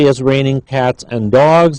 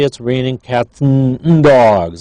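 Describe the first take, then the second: First: Every word is pronounced fully and clearly. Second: The word 'and' shrinks to a short 'n'. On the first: "they don't say" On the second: "they say ... That n is a reduced form"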